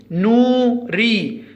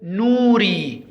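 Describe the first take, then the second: First: نوري slower, broken into نو and ري; split syllables. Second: نوري slow but joined up, vowels long; slow model word. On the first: Teacher breaking the word down for pupils, نوري syllable by syllable. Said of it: "نقول نوري". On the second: Teacher naming the pictured person, نوري slow and joined. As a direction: say نوري slowly as one word. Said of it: "ما اسمه؟". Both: Shown as a demonstration.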